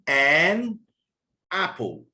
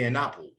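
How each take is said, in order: First: The word 'an' is said with a full vowel. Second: The word 'an' is said with a schwa vowel. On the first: The speaker calls it wrong. "I don't say an apple" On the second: The speaker calls it right. "this is the weak form of an"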